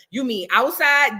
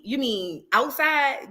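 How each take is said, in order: First: Slow, playing dumb; mocking Megan's answer. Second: Very slow, playing dumb; mocking Megan's answer. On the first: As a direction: drag the question out innocently. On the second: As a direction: stretch out "outside" innocently. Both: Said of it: "that's exactly how she sounded".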